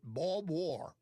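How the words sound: It is said in a broad Texas accent. "Maybe I need to clean up the Texas accent"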